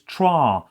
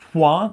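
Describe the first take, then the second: First: The word is said with an R sound. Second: The word is said without an R sound. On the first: The speaker calls it right. "but it's trois" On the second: The speaker calls it wrong. "it's not trois without the R"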